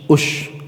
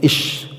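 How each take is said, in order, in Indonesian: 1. Kata ini diawali dengan vokal u. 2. Kata ini diawali dengan vokal i. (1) "ada yang membacanya" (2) "ada yang membacanya ish"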